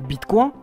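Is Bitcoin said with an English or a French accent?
French. It is said with a plain French pronunciation.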